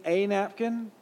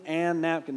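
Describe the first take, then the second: First: Slow, higher "a napkin", article said "ay"; one N only in "a napkin". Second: Lengthened N joining "an napkin"; "an napkin" with double N. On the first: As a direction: stress "a" as "ay" in "a napkin". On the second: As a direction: hold the N from "an" into "napkin". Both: Shown as a demonstration. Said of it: "Did he mean to write two N's".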